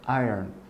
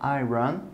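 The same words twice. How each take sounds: First: The middle of the word is swallowed. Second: The middle of the word is clearly articulated. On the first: The speaker calls it right. "vous mangez en fait le milieu du mot" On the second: The speaker calls it wrong. "vous articulez pas iron"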